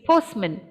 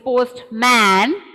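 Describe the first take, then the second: First: The second syllable has a reduced schwa vowel. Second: The second syllable has a full open vowel. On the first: "if I put a schwa sound there" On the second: "my mouth has to open, so it is postman"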